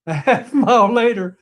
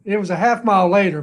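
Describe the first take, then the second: First: Amused repeat with a laugh. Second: Said in the usual way. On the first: Real, not acted. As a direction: chuckle through a half mile later.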